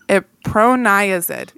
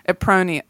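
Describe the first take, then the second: First: The ending sounds like 'azid'. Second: The ending does not sound like 'azid'. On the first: The speaker calls it right. "because it has the azide sort of suffix" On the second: The speaker calls it wrong. "I'm saying that wrong"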